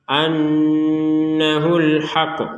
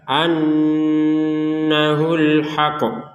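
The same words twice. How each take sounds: Both takes have the same delivery.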